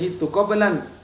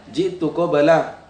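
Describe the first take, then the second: First: The last word ends with an added n sound. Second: The last word ends on a plain vowel. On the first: The speaker calls it wrong. "jangan bilang" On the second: The speaker calls it right.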